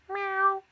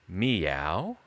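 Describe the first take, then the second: First: It sounds like a realistic cat imitation. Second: It sounds like a wary, questioning human meow.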